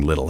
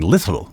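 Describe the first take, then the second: First: The T sounds are soft and thrown away. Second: The T sounds are crisp and clearly enunciated. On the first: "He's not saying little" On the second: "a little sparkly enunciation on the T's"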